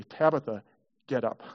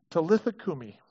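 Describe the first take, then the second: First: "Tabitha" with b in place of the l, TAB-ih-thah. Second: "Talitha cumi" with t and l, tah-LEE-thah KOO-mee; Aramaic Talitha. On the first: Pastor contrasting "Tabitha" with "Talitha". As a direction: stress "Tabitha" to show the one-letter change. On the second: Pastor quoting Jesus's Aramaic words "Talitha cumi". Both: Shown as a demonstration. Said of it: "only one letter different".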